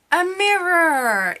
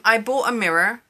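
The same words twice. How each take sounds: First: High, loud, drawn-out announcement; excited reveal. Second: Said in the usual way. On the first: Real, not acted. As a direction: sing out the big reveal. Mock-grand reveal of her purchase.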